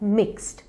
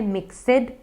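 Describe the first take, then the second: First: The word is a single syllable. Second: The word has an extra 'ed' syllable. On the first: The speaker calls it right. "ये है मिक्स्ड" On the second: The speaker calls it wrong. "कई लोग इसे बोलते हैं मिक्सड, ये गलत है"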